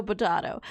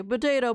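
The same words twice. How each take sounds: First: "potato" as poh-TAH-toh; second "potato" with the ah sound; potato with a broad a. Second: "potato" as poh-TAY-toh; first "potato" with the ay sound; potato with a long a. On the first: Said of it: "people say potato". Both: Shown as a demonstration.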